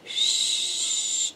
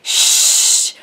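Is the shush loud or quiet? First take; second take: quiet; loud. First: The shush is soft and quiet. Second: The shush is very loud.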